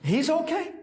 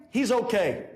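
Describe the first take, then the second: First: High questioning "He's okay?"; acted outraged disbelief; incredulous echo. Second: Said in the usual way. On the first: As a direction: throw it back as a disbelieving question. Client echoes it in disbelief.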